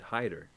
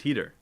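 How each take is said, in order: First: The first syllable sounds like 'hide'. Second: The first syllable sounds like 'heat'. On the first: The speaker calls it wrong. "They still mispronounce it. They say, they say Clyde Hyder" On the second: The speaker calls it right. "It's Heater"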